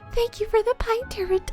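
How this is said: It is said in a high breathy voice.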